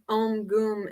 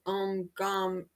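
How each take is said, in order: First: The second word has an 'oo' vowel. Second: The second word has an 'a' vowel. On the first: "we say it G O O M" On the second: "they spell it G A M"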